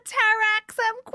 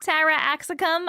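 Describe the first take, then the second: First: "Taraxum" said tar-AX-um, the middle syllable dropped; mispronounced name. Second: "Taraxacum" said in full as ta-RAX-a-cum; carefully fix it to "Taraxacum", all four syllables; corrected pronunciation. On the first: Streamer stumbling over the gift's name, "Taraxum" said too short. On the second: Streamer correcting herself, "Taraxacum" said in full. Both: Real, not acted. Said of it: "I didn't say that right".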